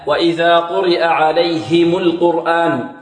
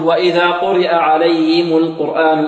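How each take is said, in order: First: The h in alayhim is clearly and distinctly articulated. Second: The h in alayhim is weak and barely heard. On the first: The speaker calls it right. "لا بد من إعمال اللسان معها وتبيينها" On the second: The speaker calls it wrong. "البعض هكذا يقول"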